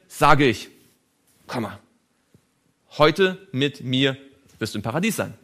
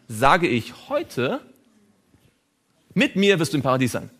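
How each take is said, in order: First: The break comes before the word heute. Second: The break comes after the word heute. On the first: Paradise is promised for that same day. "das Komma hierhin gesetzt" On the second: Only the saying happens today, paradise comes later. "Wenn Sie das Komma nur um eine Stelle verschieben"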